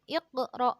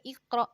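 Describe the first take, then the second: First: The q is released with a bouncing echo. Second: The q is cut off flat without echo. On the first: The speaker calls it right. "iqra ada pantulan" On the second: The speaker calls it wrong. "enggak boleh iqra"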